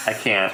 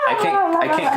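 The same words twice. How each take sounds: First: Said in the usual way. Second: Much higher squeaky Elmo impression. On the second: Shown as a demonstration. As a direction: chirp it like Elmo, way up high. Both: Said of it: "I tried to do an Elmo underwater voice".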